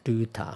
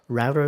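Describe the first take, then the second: First: It is said with a British-style pronunciation. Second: It is said with an American-style pronunciation. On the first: Japanese speakers usually say it this way. "I think people say router" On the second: Japanese speakers rarely say it this way. "I don't think I've ever heard anyone saying"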